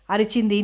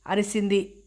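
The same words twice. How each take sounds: First: అరిచింది said right with ch, the fix; corrected: అరిచింది with a clear ch; corrected word. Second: అరిసింది said with s instead of ch, a slip; slip: అరిసింది with a soft s sound; misread word. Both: Real, not acted.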